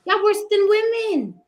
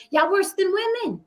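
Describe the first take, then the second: First: Higher and louder, hammer it home; louder indignant callout. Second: Higher, pointed jab; indignant callout. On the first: Host doubling down on the men on the panel, louder and higher. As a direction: repeat it harder, really leaning in. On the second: Host scolding the men on the panel, rising indignation. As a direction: call them out, first time. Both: Real, not acted.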